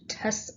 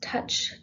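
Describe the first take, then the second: First: The word ends with an s sound. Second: The word ends with a ch sound. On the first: "or just the C" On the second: "either with touch"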